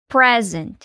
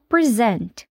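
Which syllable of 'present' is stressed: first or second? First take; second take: first; second. First: The stress is on the first syllable. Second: The stress is on the second syllable. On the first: It is a noun meaning a gift. "se ela for um substantivo, o stress fica na primeira sílaba" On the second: It is a verb meaning to give something. "Se ela for um verbo, o stress fica na segunda sílaba"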